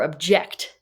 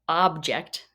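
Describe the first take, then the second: First: The stress is on the second syllable. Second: The stress is on the first syllable. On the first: It expresses disagreement. "emphasis on the second syllable" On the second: It names a thing. "emphasis on the first syllable"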